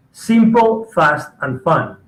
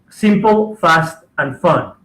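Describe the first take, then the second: No difference in how they are said.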